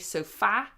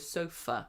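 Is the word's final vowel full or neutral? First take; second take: full; neutral. First: The final vowel is a full open vowel. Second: The final vowel is a neutral uh sound. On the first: The speaker calls it wrong. "even though it's an A, we don't say sofa" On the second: The speaker calls it right. "we go sofa"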